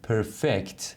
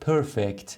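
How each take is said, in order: First: The stress is on the second syllable. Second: The stress is on the first syllable. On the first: It is used as a verb. "حالا که فعله میگیم perfect" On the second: It is used as an adjective. "اگر صفت بود میشد perfect"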